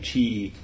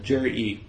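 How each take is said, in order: First: The name begins with a 'ch' sound. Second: The name begins with a 'j' sound. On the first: The speaker calls it wrong. "All these years I've been saying Chi" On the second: The speaker calls it right. "So Jury"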